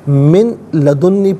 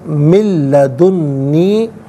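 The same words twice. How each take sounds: First: The n of min is pronounced separately. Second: The n of min merges into the l. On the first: The speaker calls it wrong. "पढ़ना गलत है" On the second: The speaker calls it right. "नून साकिन को लाम के साथ मिलाकर"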